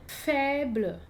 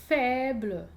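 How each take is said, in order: No difference in how they are said.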